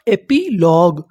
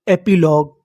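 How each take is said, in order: First: epilogue in parts, एपी then लॉग; measured teaching breakdown of epilogue; syllable by syllable. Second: Said in the usual way. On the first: Shown as a demonstration. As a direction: split epilogue with a small gap before लॉग. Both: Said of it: "meaning क्या बनी".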